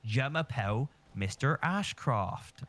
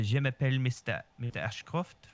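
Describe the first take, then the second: First: Slow, broad Bristolian French; imitating a Bristolian French teacher, drawn out; Bristolian accent. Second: Put-on French-accented self-introduction. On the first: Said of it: "incredibly Bristolian teacher". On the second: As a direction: say it with a French lilt. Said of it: "or, like, in a French tone".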